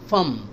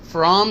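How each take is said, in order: First: The word has a short, reduced vowel. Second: The word has a full, clear vowel. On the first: The speaker calls it right. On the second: The speaker calls it wrong.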